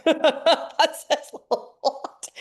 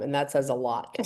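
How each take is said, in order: First: Much higher, slow, laughing repeat. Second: Said in the usual way. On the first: Real, not acted. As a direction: let the laugh carry the words. Repeats remark, then laughs.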